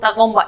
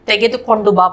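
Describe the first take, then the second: First: The phrase is said in a short, contracted form. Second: The phrase is said in its full, uncontracted form. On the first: This is the everyday spoken form. "ये तगोंबा spoken version में हो गया" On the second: This is the bookish written form. "किताब version में पढ़ने लिखने का शैली में"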